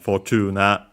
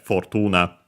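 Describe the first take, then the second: First: It follows English sounds, with a long o. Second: It follows Latin sounds, as a dictionary form. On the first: It is the form adapted from English. "notice again the or uh, sounds that become simply the long vowel o" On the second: It is the name of the Roman goddess. "based on the pronunciation in Latin"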